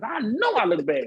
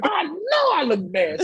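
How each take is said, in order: First: Laughing. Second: Higher, slower, laughing through it; laughing at his own battered face; laughing louder. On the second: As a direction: repeat it higher and slower, cracking up. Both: Real, not acted.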